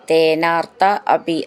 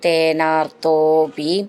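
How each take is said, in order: First: The two words are said separately. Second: The two words are merged into one.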